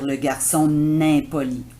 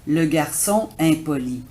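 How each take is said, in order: First: An n sound links garçon to impoli. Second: No n sound links garçon to impoli. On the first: The speaker calls it wrong. "Ce ne serait pas beau de dire" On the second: The speaker calls it right. "On ne fait pas la liaison"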